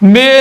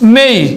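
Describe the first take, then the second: First: The vowel is a plain, short 'e' sound. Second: The vowel glides from 'e' into 'ee'. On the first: The speaker calls it wrong. "মে নয়" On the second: The speaker calls it right. "হয়ে যাবে মেই"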